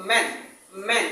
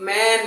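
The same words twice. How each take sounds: First: ম্যান with a short, light vowel. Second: ম্যান with a long, stretched vowel. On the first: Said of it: "আমরা কি বলবো?". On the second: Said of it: "এটা long sound হয়ে যাবে". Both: Shown as a demonstration.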